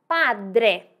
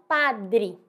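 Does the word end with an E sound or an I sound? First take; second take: E sound; I sound. First: The word ends with a clear E sound. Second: The word ends with an I sound. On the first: The speaker calls it right. "o E deve ser pronunciado" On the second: The speaker calls it wrong. "E não padre"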